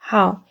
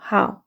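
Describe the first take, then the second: First: The word is said as one syllable. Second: The same.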